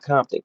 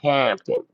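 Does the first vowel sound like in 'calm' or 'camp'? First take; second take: calm; camp. First: The first vowel sounds like in 'calm'. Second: The first vowel sounds like in 'camp'. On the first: The speaker calls it wrong. "not Compton" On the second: The speaker calls it right. "You gotta say it like that"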